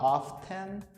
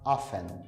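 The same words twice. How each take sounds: First: The t in the middle is pronounced. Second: The t in the middle is silent. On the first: The speaker calls it wrong. "você não vai falar often" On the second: The speaker calls it right. "você vai falar often, como se o T não tivesse ali"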